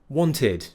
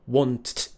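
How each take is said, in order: First: The ending is an extra id syllable. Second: The ending is a bare t sound. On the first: The speaker calls it right. "we use id instead" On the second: The speaker calls it wrong. "So it would be want. That's not right"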